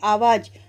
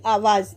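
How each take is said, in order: First: The word ends with a plain 'j' sound. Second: The word ends with a 'z' sound.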